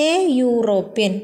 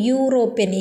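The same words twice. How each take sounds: First: എ യൂറോപ്യൻ said slowly, യൂറോപ്യൻ opening with a yu sound; slow example phrase. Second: യൂറോപ്യൻ opening with a clear yu sound. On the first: Teacher models the article for students, slowly. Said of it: "നമ്മളവിടെ pronounce ചെയ്യുന്നത് യു". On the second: Teacher shows students the yu onset sound. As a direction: say യൂറോപ്യൻ starting on yu. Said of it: "pronounce ചെയ്യുന്നത് യു". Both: Shown as a demonstration.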